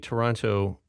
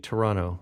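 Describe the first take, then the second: First: The second T is clearly pronounced. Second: The second T is dropped. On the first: This is how Americans say it. "Americans say Toronto" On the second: This is how Canadians say it. "Canadians say Toronto, ... we just don't have patience for that last T"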